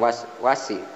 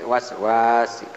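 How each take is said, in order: First: The vowel is held short. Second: The vowel is held long. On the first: The speaker calls it wrong. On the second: The speaker calls it right. "panjang harkatnya alif dua harkat"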